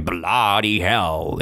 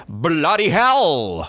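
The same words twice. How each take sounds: First: Said in the usual way. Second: Higher, drawn-out mock shout. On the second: Teacher repeating what Spaghetti shouted to Zeke, shouting. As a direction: call it out high and stretched. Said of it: "He shouted".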